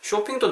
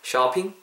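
First: The first vowel sounds like a rounded 'o'. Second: The first vowel sounds like an open 'ah'. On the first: "쇼핑도 나쁜 발음은 아니지만" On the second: "약간 모음을 약간 아에 가깝게 야, 아야에 가깝게 해서"

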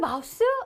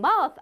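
First: The word ends with an s sound. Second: The word ends with a th sound. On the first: The speaker calls it wrong. "간혹 그 마우스? 네, 이러시나?" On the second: The speaker calls it right. "이쪽으로 어떻게 바람을 쉬 내보내면서 mouth"

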